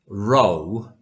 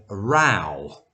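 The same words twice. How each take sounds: First: "row" rhyming with "go"; row as a line. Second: "row" rhyming with "cow"; row as argument. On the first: Teacher shows learners a heteronym, "row" said like "roe". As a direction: say "row" with a long OH vowel. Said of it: "row is a line". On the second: Teacher contrasts the second heteronym, "row" said like "rau". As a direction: say "row" with an OW vowel. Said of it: "is a word for argument". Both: Shown as a demonstration.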